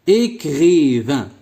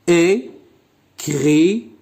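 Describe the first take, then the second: First: Said in the usual way. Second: Écrivain very slowly as É, cri, vain, with long pauses; split into syllables. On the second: Shown as a demonstration. Teacher showing pupils how to count syllables, split into syllables. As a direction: break Écrivain into three drawn-out syllables. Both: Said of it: "puis écris le nombre de syllabes".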